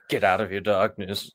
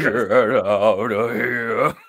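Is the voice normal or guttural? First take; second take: normal; guttural. First: It is said in a normal voice. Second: It is said in a guttural voice.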